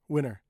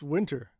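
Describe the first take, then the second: First: The T sound after the N is dropped. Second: The T sound after the N is pronounced. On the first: "I cut the T" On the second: "Short sentence. Very, uh, not very, but kind of slow"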